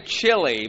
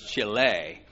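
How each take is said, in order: First: It sounds like the food, 'chilly'. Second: It is said the Spanish way, 'chee-lay'. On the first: The speaker calls it wrong. "don't say chili because you'll be corrected" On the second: The speaker calls it right. "because it's Chile"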